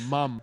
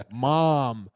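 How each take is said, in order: First: Said in the usual way. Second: Drawn-out American "mom"; American pronunciation. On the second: Shown as a demonstration. Kids quoted as saying it the American way, American accent. American word against British one.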